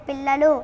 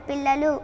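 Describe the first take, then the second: The two takes are said the same way.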